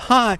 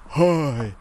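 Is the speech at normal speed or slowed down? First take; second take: normal; slowed down. First: It is said at a normal speed. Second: It is said slowed down and drawn out. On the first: "Instead of hi" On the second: "they'll sound really stupid ... they go"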